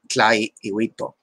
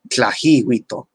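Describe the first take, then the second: First: The glottal stop is pronounced as a catch. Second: The glottal stop is pronounced as an h sound. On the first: The speaker calls it right. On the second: The speaker calls it wrong.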